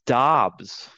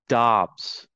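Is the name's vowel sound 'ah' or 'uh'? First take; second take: ah; ah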